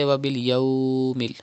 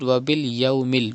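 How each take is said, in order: First: The vowel is stretched out long. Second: The vowel is kept short, not stretched. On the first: The speaker calls it wrong. "Do not stretch" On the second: The speaker calls it right. "you have to read"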